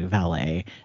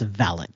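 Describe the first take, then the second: First: It uses the pronunciation common in most countries. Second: It uses the British and Australian pronunciation. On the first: "in most countries you say valet" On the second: "except in like Britain and Australia, where it is valet"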